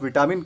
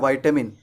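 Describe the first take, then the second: First: It has three syllables with a full middle 'ta'. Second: The first syllable rhymes with 'bite'. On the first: "अगर आप विटामिन कहते हैं तो ये गलत है" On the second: "American English में हम कहते हैं वाइटामिन"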